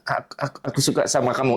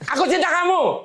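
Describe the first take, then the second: First: It is said shyly, hesitantly and heavily. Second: It is said loudly with great enthusiasm.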